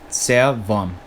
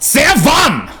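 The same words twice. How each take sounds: First: It is said in a calm, neutral voice. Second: It is said in an angry, forceful voice.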